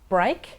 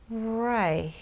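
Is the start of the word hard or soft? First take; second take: hard; soft. First: The word starts with a hard, abrupt contact. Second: The word starts softly with continuous airflow. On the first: The speaker calls it wrong. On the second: The speaker calls it right.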